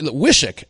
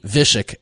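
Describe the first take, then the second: First: "Wishick" said with a plain English W sound; as spelled, with a W. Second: "Vishik" with a V at the start, like the locals say it; local V sound. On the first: Shown as a demonstration. Town name said as spelled, with a W. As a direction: read "Wishick" just the way it looks, W like in wish. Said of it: "I pronounced it like it looked". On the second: Retold or imitated. Retelling how the local corrected him, with a V. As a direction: swap the W for a V: "Vishik". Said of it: "it's actually like a V".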